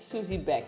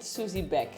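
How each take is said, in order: First: The surname is said the German way. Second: The surname is said the German way.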